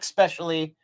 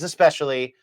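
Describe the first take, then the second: First: The word starts with an 'ex' sound. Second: The word starts with an 'ess' sound. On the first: The speaker calls it wrong. "It is not" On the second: The speaker calls it right. "It is"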